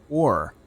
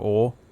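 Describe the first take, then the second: First: It is said with an American accent. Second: It is said with an English accent.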